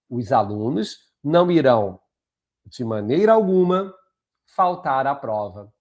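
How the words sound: Pauses set off the phrase de maneira alguma. The speaker calls it right. "Teve uma quebra, não teve?"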